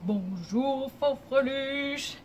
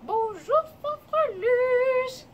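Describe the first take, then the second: First: It is said in a deep, low voice. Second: It is said in a small, high voice.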